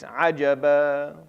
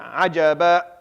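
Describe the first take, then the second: First: The final vowel fades out gradually. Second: The final vowel is cut off abruptly. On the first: The speaker calls it right. "it just fades out. And it fades out with two counts" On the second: The speaker calls it wrong. "Ajaba is like you put a hamza at the end of it, and that's not how it's supposed to sound"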